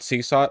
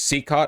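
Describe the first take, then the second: First: The second syllable starts with an s sound. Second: The second syllable starts with a k sound. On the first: The speaker calls it wrong. "not Seasot" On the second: The speaker calls it right. "It's Seacott"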